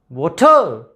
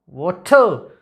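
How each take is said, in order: First: The stress is on the second syllable. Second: The stress is on the second syllable.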